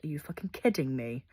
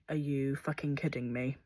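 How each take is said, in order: First: The stress falls on the word after it. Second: The stress falls on the swear word. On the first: The speaker calls it right. "actually it would have more emphasis if I said" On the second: The speaker calls it wrong. "instantly I would kind of emphasize the F word"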